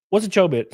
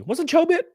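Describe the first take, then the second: First: Said in the usual way. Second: High puzzled query; baffled rising question. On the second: Real, not acted. Streamer to chat, high baffled question. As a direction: ask it high and confused.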